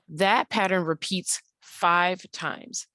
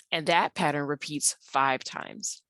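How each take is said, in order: First: Slow, each word laid down deliberately; teacher slowing down to make the point land; slow emphatic. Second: Said in the usual way. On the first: Shown as a demonstration. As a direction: spell it out slowly for the class.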